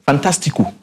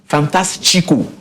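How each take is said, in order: First: The word is pronounced with Spanish sounds. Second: The word is pronounced with Portuguese sounds. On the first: "Fantastico, Spanish" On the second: "Fantastico, Portuguese"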